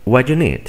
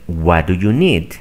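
First: The words are reduced and run together. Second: Every word is pronounced fully and separately. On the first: "Aquí simplemente dicen" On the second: "En lugar de que digan"

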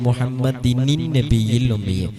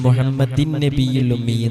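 First: Muhammad carries an added 'nin' before nabiyyi. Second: Muhammad links straight into nabiyyi without extra 'nin'. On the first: The speaker calls it right. "പിന്നെ എങ്ങനെ ചൊല്ലേണ്ടത്?" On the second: The speaker calls it wrong. "എന്നല്ല"

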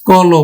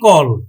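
First: The word ends with an o vowel. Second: The word ends in a bare consonant. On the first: The speaker calls it right. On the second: The speaker calls it wrong.

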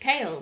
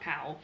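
First: The vowel matches the start of 'chaos'. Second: The vowel differs from the start of 'chaos'. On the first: The speaker calls it right. "chaos, Kale" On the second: The speaker calls it wrong. "not Cowl"

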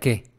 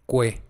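First: It is said as plain 'ke' without a w. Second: It is said as 'kwe' with a w sound. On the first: The speaker calls it wrong. "No es que, en español sería que" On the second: The speaker calls it right. "Pero en italiano se pronuncia que"

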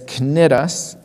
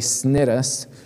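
First: The word starts with a K sound. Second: The word starts without a K sound. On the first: The speaker calls it right. "that sea is pronounced like a K" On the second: The speaker calls it wrong. "I wanted to say Cnidus"

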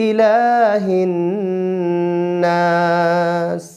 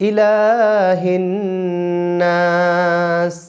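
The two takes are said the same way.

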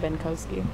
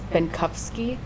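First: The middle consonant is a W sound. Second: The middle consonant is an F-like sound. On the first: This is how it is said in the United States. "so then they just changed it to Benkowski" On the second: This is how it is said in Germany. "with like a F sound instead of a W"

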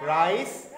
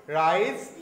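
The two takes are said the same way.

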